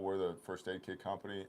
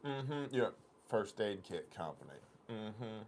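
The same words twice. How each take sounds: First: Said in the usual way. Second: Mild doubting clerk voice; mock skeptical clerk. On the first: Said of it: "I was like". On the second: Clerk doubting the first aid story, mild skepticism. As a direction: repeat the company name back with disbelief. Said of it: "She goes".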